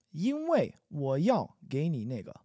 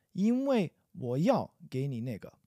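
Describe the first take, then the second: No difference in how they are said.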